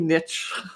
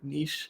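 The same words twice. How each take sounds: First: Niche is said with an American pronunciation. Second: Niche is said with a Canadian pronunciation. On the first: "which is what the Americans say" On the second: "we're Canadians and that's how we say it"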